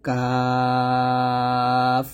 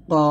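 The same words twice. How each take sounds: First: 'কাফ' long-held and light, tongue slightly forward; thin kaf. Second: 'কফ' long-held, heavy, from the back of the tongue; thick qaf. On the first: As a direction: stretch 'কাফ' thin and normal, not heavy. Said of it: "নরমালভাবে পাতলা করে". ('কাফ' পাতলা করে টেনে উচ্চারণ) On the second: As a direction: stretch 'কফ' thick against the palate. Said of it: "মোটা করে". ('কফ' মোটা করে টেনে উচ্চারণ) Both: Shown as a demonstration.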